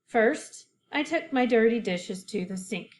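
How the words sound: There is a short pause after first.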